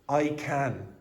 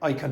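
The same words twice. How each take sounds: First: The word 'can' has its full, strong vowel. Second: The word 'can' is weakened and reduced. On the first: The speaker calls it right. "it would generally be pronounced I can" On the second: The speaker calls it wrong. "You wouldn't say I can"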